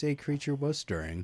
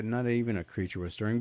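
First: A said as a full "ay", set apart; stress on A. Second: Said in the usual way. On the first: Shown as a demonstration. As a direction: lean on the article A, pronounced "ay". Contrasts title with familiar line.

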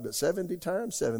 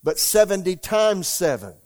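First: Seventy times seven said quietly, times still leaned on; softer reread. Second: Emphatic reading. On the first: Pastor repeats verse to church, quieter and reflective. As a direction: let it settle, softer this time. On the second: Pastor reading Jesus' words to church, loud emphatic proclamation. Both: Shown as a demonstration.

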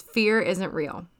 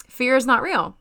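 First: Said in the usual way. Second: "Fear is not real." with "not" hit higher and louder; stress on not. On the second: Shown as a demonstration. Repeating her mantra to listeners, stress on not. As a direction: punch the word "not". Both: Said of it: "my mantra is".

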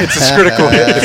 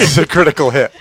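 First: Excited announcement. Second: Said in the usual way. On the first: Pretend.

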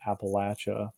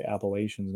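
First: Appalachia with a short-a LATCH in the middle; short "a" and tch in Appalachia; rejected southern pronunciation. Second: Appalachians with a long-a LAY in the middle; long "ay", then sh, in Appalachians; northern pronunciation. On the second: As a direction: say Appalachians as "app-uh-LAY-shunz". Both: Shown as a demonstration. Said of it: "so we say Appalachians, not Appalachia".

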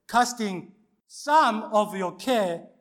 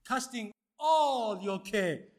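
First: "some" punched loud and high, drawn out slowly; stress on "some". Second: "all" stretched long from a high start, falling; stress on "all". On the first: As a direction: lean hard and slowly on "some". Deliberate misquote, corrected to all. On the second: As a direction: draw out "all" slowly and firmly. Corrected quote of the verse. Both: Shown as a demonstration.

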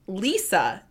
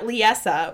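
First: Lisa as two syllables, LEE-suh; correct pronunciation Lisa. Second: Liesa in three syllables, lee-ESS-uh; mistaken pronunciation Liesa. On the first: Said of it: "is how you're supposed to say it". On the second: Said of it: "which is how I've been saying it". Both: Shown as a demonstration.

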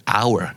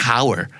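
First: HOUR as our; dropped h in "hour"; silent H. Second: HOUR as how-er; audible h in "hour"; wrongly sounded H. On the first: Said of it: "both, American and British". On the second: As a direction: say "hour" with a breathed h. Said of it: "not hour". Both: Shown as a demonstration.

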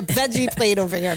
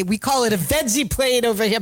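First: Said in the usual way. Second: Lightly mocking a Pennsylvanian; a hint of a smug local correcting him. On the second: Mocking Oz's critics with a mild twang. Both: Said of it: "as everybody has gone".

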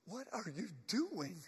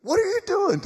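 First: Soft, stunned question; hushed disbelief. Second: High, loud, incredulous question; shocked outcry. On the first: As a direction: ask it under your breath, as if seeing the dead. Acts stunned friends of risen Lazarus. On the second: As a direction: cry out in mock alarm at the risen man. Friends ask Lazarus once more. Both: Acted.

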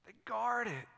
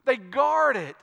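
First: Soft, weighty echo; quietly emphatic, well under preaching volume; hushed repeat. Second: "guard" pushed out firmly; firm, full-voiced "guard"; emphatic statement. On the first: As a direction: drop to a soft voice to let it sink in. Same line repeated hushed after pause. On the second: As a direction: preach it firmly, leaning on "guard". Preacher repeats line for emphasis. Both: Real, not acted.

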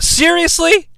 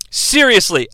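First: High rising disbelief on seriously; stunned question; incredulous. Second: Said in the usual way. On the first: Real, not acted. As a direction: ask it like you can't believe it. Reacting to a dull lockup.

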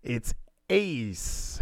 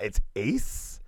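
First: "Ace" with a falling, final tune; landing on "Ace" as the answer; settled Ace. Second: "Ace" with a rising, questioning tune; sounding out "Ace" as if unsure; puzzled Ace. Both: Retold or imitated. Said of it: "And I read that, like, three times".

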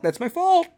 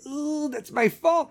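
First: Much higher, squeaky mock-guilty repeat; sheepish parent, higher. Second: Slow, higher, sheepish parent's confession; a caught parent owning up, drawn out. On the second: Retold or imitated. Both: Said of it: "you're just gonna be like".

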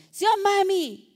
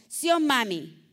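First: Put-on higher, louder sing-song child's plea; child asking blessing. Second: Said in the usual way. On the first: Daughter asking her mother for the blessing, higher sing-song plea. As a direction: ask mami for the blessing like a small child. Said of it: "Así le decía yo a mi mamá". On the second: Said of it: "¿Usted sabe qué es sí, oh, mami?".

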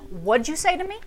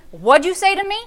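First: Half-laughing mock challenge. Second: Put-on higher, sharper mother challenging her child; a mother daring her kid to repeat it; stern mother. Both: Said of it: "you do not say no to your mother".

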